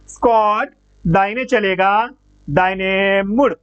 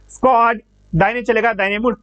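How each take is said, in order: First: A short pause separates the two commands. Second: Both commands run together with no pause.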